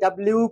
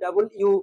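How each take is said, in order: First: The letter name is run together into one word. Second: The letter name is said as two separate words. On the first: "আমরা যেমন করি ডাব্লিউ করি" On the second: "কেউ বলে ডাবল ইউ"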